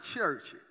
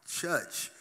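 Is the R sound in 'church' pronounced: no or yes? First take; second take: Yes; No. First: The word is said with its R sound. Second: The word is said without its R sound. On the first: It means an ordinary, formal church. The speaker calls it wrong. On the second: It means a lively, spirited church. The speaker calls it right.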